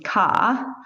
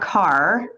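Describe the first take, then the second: First: The final R is dropped. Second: The final R is pronounced.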